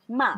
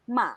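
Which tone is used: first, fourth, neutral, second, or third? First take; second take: neutral; neutral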